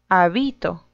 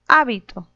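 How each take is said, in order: First: The stress is on a later syllable. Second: The stress is on the first syllable.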